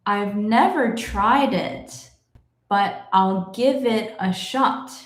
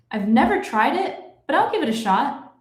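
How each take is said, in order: First: The sentence is read somewhat slowly. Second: The sentence is read at natural fast speed. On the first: "but a little bit faster" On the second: "I will read it in my normal speed"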